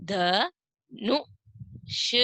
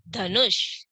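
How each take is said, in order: First: Dhanush drawn out very slowly; slow first take. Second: Said in the usual way. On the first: Shown as a demonstration. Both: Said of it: "अगला चित्र है".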